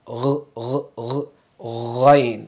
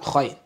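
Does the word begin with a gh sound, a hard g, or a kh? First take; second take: gh; kh. First: It begins with a voiced throaty gh sound. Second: It begins with a rough voiceless kh sound. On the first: The speaker calls it right. "That's the sound" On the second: The speaker calls it wrong. "It's not khain"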